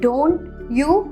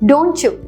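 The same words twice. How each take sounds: First: The two words are said separately with a pause. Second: The two words are linked smoothly together. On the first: The speaker calls it wrong. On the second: The speaker calls it right.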